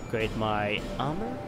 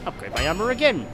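First: Gamer wondering about an upgrade, questioning; rising tune on "armor". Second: Higher, exclaiming, falling on "again"; excited exclamation. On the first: Ask it, letting "armor" lift at the end. Reading upgrade option, then exulting. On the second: Gamer delighted at upgrading again, excited. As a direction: exclaim it with a lift through "armor again". Exulting over another upgrade. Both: Real, not acted.

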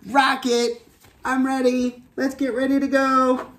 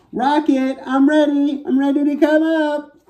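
First: High character voice, retake. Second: Squeaky high little astronaut voice, calling up; high character voice. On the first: Astronaut tries again calling her rocket, high and gentler. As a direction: call the rocket again in the same high voice, less pushed. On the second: Little astronaut calls up to her rocket, high and squeaky. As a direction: call to the rocket in a tiny high voice. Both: Acted. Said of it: "You probably can't hear me very well like that".

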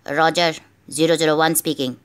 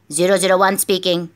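First: Phone voice. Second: Said in the usual way. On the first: Acted. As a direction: lower voice over a phone line. Agent answers on secret phone.

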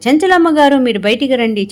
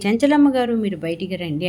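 First: Mock shout, a bit higher and louder; retold angry summons; calling out loudly. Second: Said in the usual way. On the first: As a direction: call her out of the house, half-acted. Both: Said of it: "గట్టి గట్టిగా అరుచుకుంటూ వస్తారన్నమాట".

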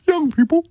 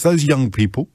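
First: Put-on YOUNG PEOPLE pitched very high; mock correction. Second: Said in the usual way. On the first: Host jokily correcting himself for saying kids, YOUNG PEOPLE in mock high voice. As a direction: squeak out YOUNG PEOPLE, far above normal pitch.

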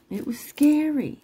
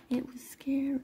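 First: High-pitched, emphatic SCARY; high, voiced insistence on "scary"; voiced exclamation. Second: Hushed, whispery "scary"; soft confiding whisper; whispered repeat. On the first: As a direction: pitch it way up, then drop at the end. Says it twice, contrasting takes. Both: Real, not acted.

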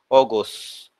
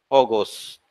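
Both takes have the same delivery.

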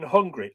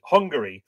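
First: Hungary squashed to two syllables, like "hungry"; mispronounced Hungary. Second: Hungary in three syllables, "HUNG-ga-ree"; careful three-syllable Hungary; corrected Hungary. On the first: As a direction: drop the middle vowel of Hungary, "HUNG-ree". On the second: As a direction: sound out the middle vowel of Hungary. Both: Real, not acted.

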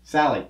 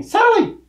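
First: Said in the usual way. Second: Very high-pitched call of Sally; corrected, bigger delivery. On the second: Acted. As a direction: redo the name as a big high cry. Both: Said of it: "I mean, Sally!".

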